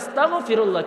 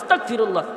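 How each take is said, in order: First: It is said with a throaty gh sound. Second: It is said with a hard k sound. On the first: It asks for forgiveness of sins. The speaker calls it right. "হে আল্লাহ, তুমি আমার গুনাহগুলো কি করো? মাফ করে দাও।" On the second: It asks to be made an unbeliever. The speaker calls it wrong. "এটার অর্থ হইতাছে কি জানেন? হে আল্লাহ, তুমি আমাকে কাফের বানাও।"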